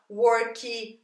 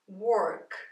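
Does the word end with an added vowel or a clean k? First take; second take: added vowel; clean k. First: An extra vowel sound follows the final k. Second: The word stops cleanly on the final k. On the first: The speaker calls it wrong. "Nós brasileiros temos uma mania de falar work" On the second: The speaker calls it right. "corta no K"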